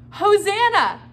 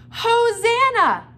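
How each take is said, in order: First: Much higher, loud call; shouted together. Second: Much higher, loud, drawn-out cry; joyful shout. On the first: Shown as a demonstration. Teacher shouting Hosanna with the kids, loud and high. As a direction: lead the kids in a big shout. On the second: Acted. Crowd shouting Hosanna at Jesus, loud and drawn out. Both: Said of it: "Can you guys say the word Hosanna?".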